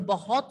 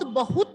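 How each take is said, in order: First: The second syllable lacks a clear short u vowel. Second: The second syllable has a clear short u vowel. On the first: The speaker calls it wrong. "बहुत नहीं होता" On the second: The speaker calls it right. "बहुत होता है word"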